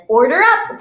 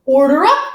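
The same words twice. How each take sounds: First: Loud, higher call from the kitchen; chef calling out. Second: Loud, higher kitchen call; chef calling out. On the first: Pretend chef announcing the food: loud call. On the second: Pretend chef announcing the food is ready: loud call. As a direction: ring it out for the whole room. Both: Pretend.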